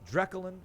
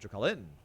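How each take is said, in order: First: The stress is on the second syllable. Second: The stress is on the third syllable. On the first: "Is it the second syllable" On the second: "or the third syllable?"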